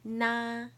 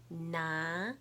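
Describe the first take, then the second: First: It is said with the first tone. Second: It is said with the second tone.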